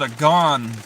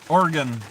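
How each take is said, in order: First: The last syllable is a full 'gone'. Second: The last syllable is a reduced 'gun'. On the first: The speaker calls it wrong. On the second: The speaker calls it right.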